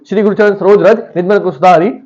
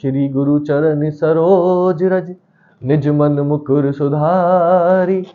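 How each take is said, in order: First: The line is recited at a fast speed. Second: The line is recited at a slow, relaxed speed. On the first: "मतलब speed में बोल दो" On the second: "मैं इसको आराम से ही बोल सकता हूं"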